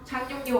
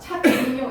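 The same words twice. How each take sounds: First: The consonants are nasalized and run smoothly together. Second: Each syllable is cut apart, consonants as spelled. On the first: The speaker calls it right. "비음화가 일어나서 착륙요 하고 발음하시면 되겠습니다" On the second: The speaker calls it wrong. "이렇게 정확히 끈을 그어야 될 것 같지만"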